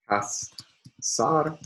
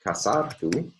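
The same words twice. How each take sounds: First: Kasartuhu, slowed and higher, stress on sar. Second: Kasartu with sar stressed, tune rising; kasartu, sar stressed, rising at the end. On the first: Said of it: "primary stress will be assigned to the third to last syllable". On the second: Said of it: "the second to last syllable is heavy". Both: Shown as a demonstration.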